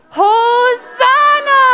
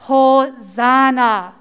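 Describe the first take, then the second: First: Long, high, loud celebratory shout; jubilant cheer. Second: Measured, drawn-out teaching delivery; slow model word. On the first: Teacher leading children in the special word, jubilant shout. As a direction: cry it out joyfully, drawn out. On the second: Teacher showing children the special word, slow and measured. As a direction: say it slowly and evenly, drawn out. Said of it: "I'm gonna say a word". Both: Shown as a demonstration.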